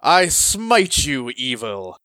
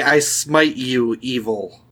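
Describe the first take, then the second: First: Slow righteous paladin declaration. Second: Paladin voice. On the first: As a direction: proclaim it slowly like a holy knight. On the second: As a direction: proclaim it like a holy knight. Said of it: "Say, say". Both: Shown as a demonstration.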